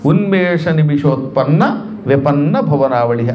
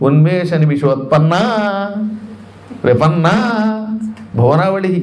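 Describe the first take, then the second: First: It is recited as one unbroken phrase. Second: It is recited broken up into parts. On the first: The whole name is a single compound. The speaker calls it right. "అదంతా ఒకటే సమాసం" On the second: The reader does not know it is one compound. The speaker calls it wrong. "కానీ తెలియకపోతే ఏం చదువుతారు"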